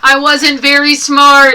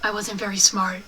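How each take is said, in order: First: It is said much louder, almost shouted. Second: It is said at a normal, quieter volume.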